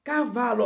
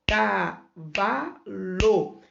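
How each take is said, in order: First: Said in the usual way. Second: CAVALO very slow, ca... va... lo; split into syllables. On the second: Shown as a demonstration. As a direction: say cavalo with a gap after each syllable. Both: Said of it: "Minha boca emitiu três pedacinhos de som".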